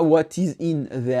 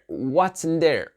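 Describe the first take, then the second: First: What is is said as two full words. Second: What is is contracted to what's. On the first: The speaker calls it wrong. "Pas what is in there" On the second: The speaker calls it right. "Il a dit, what's in there?"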